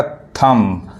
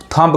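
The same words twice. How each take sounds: First: थंब ending on m, no b; silent B. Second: थंब with the final b sounded; common mispronunciation. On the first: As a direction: say थंब as "thum", dropping the b. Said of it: "ये बी silent होता है". (थंब को "थम" पढ़ें, ब silent) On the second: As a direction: say थंब wrongly as "thum-b". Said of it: "थंब कहते हैं". (थंब में "ब" को बोलकर गलत उच्चारण) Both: Shown as a demonstration.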